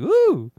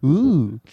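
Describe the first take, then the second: First: It is a big, loud ooh. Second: It is a small, restrained ooh.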